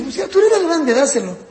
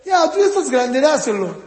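First: Higher, louder mock parent; impatient parent. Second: Higher mock parent; impatient parent. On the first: Parent telling the older child to give up his toy, mock impatient. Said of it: "Entonces, ¿qué dice?". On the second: Typical parent ordering the older child to hand it over, mock impatient. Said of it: "La mayoría de los papás, ¿qué hacen?".

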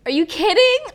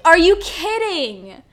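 First: Higher, louder incredulous cry; outraged. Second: Slow, loud incredulous repeat; drawn-out outrage. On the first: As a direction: cry out in disbelief. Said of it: "outraged rhetorical question". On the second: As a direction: stretch it out in disbelief. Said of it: "repeated, slower". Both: Real, not acted.

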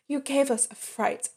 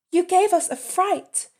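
First: Said in the usual way. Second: Raised, fussing wife voice; wife's voice. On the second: Retold or imitated. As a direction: play the startled wife, pitched high. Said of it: "the wife said".

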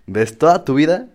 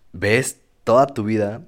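First: "toda" pushed higher and louder with a rise; emphatic repeat. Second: Said in the usual way. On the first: Real, not acted. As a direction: hit "toda" hard, voice up and louder. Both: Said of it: "repeats phrase with more force".

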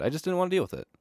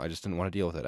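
First: Much higher, whiny repeat; high silly voice. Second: Said in the usual way. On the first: Shown as a demonstration. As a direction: squeak it out like a whine. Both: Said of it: "repeated in high voice".

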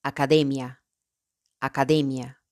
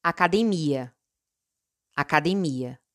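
First: "academia" in Spanish, stressed on DE. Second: "academia" in Portuguese, stressed on the MI. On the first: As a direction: say "academia" as a-ca-DEH-mya. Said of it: "En español". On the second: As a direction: say "academia" as a-ca-de-MEE-a. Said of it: "En portugués". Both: Shown as a demonstration.

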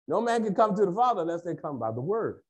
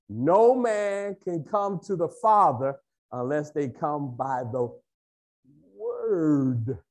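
First: Said in the usual way. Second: Stretched out, pausing before "Word"; slow, emphatic. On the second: Real, not acted. Preacher teaching that the Word is the way, slow and weighty. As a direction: hold back "Word", then draw it out.

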